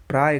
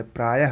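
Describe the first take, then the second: First: प्राय cut to one syllable, "praay"; wrong pronunciation. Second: प्रायः as two syllables, "praa-yah"; correct pronunciation. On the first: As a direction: end प्राय on the y. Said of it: "गलत है". (प्राय बिना विसर्ग के) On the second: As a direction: breathe an h to end प्रायः. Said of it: "होता है सही". (प्रायः में विसर्ग बोलें) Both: Shown as a demonstration.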